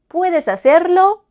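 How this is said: The pitch rises at the end. It is a question. "Les épaules qui montent. Question"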